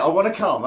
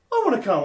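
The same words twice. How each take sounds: First: Put-on louder, higher stubborn teen; teen daughter insisting on the concert; imitating insistent daughter. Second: Put-on higher, louder teen plea; a daughter begging her dad to take her; imitating eager daughter. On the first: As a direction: dig in like a teenager who won't budge. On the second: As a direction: play the keen fourteen-year-old.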